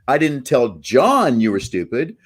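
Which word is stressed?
John. The stress is on John.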